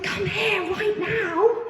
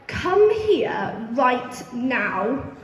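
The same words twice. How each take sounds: First: It is said in an excited, happy tone. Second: It is said in a stern, scolding tone.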